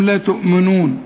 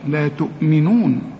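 First: The vowel after the m is dropped. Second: The m is followed by a clear i vowel. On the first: The speaker calls it wrong. "ناس كتير قوي تضيع منهم الميم المكسورة" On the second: The speaker calls it right. "يزيد الميم مكسورة هنا"

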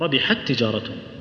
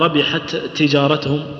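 First: The two t sounds merge into one doubled t. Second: The two t sounds are pronounced separately. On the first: The speaker calls it right. "ندغمها إدغام كامل" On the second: The speaker calls it wrong. "ما نقول"

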